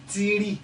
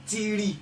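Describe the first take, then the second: Both takes have the same delivery.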